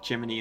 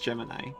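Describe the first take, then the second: First: The word ends with an 'ee' sound. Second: The word ends with an 'eye' sound. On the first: This is how the game says the name. "they literally pronounce it uh, Jiminy in the game" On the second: This is the usual way to say the name. "I know it's Gemini"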